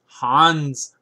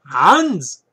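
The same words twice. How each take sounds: First: Louder mock German accent. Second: Loud, high-pitched mock German bark; hammed-up German accent, pitched up and shouted; Hitler. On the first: Book reviewer naming a chess author, mock German accent. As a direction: announce the name in a put-on German accent. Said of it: "That's my German". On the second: Book reviewer shouting an author's name, mock German dictator accent. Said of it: "That's my Hitler".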